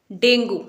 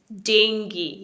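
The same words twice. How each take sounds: First: "डेंगू" ending in an oo sound; common mispronunciation. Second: "डेंगी" ending in an ee sound; correct ee ending. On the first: Teacher showing the familiar wrong form, oo ending. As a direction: say "डेंगू" as deng-goo. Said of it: "वो डेंगू नहीं है". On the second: Teacher modelling the correct word, ee ending. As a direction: say "डेंगी" as deng-gee. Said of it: "correct pronunciation है वो है". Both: Shown as a demonstration.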